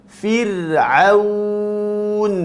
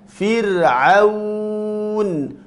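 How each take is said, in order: Both takes have the same delivery.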